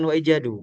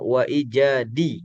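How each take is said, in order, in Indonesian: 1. Kata terakhir berakhir dengan vokal 'u'. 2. Kata terakhir berakhir dengan vokal 'i'. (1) "secara posisi dia itu bukan wa ijadu" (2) "dia posisinya wa ijadi"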